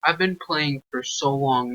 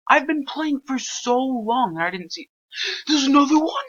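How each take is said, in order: First: Said in the usual way. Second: Pitched up and louder, disbelieving; frustrated gamer exclaiming; exasperated high-pitched outburst. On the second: Real, not acted. Frustrated at missing clue.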